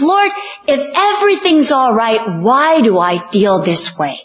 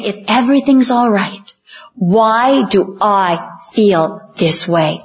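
First: Raised pitch, falling toward the end; acted pleading prayer. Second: Measured plea, stretching "why do I feel this way"; deliberate questioning. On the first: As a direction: plead to God as troubled Rebecca. Acted anxious prayer of Rebecca. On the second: Retold or imitated. Question repeated as the congregation's own.

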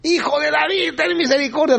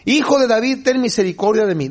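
First: Much higher, strained plea without extra volume; high-pitched acted yell for mercy; insistent mock cry. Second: Higher-pitched plea, no real shout; lightly acted cry for mercy; mock calling out. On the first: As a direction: imitate a desperate call over a crowd. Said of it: "más grita este hombre". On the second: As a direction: call out pleadingly, pitch raised, volume held back. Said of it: "Empieza a gritar".

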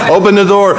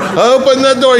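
First: Higher, urgent pleading. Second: Much higher, panicked begging; frantic pleading. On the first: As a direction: beg to be let out. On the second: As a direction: shriek it in rising panic. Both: Retold or imitated. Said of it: "and he says".

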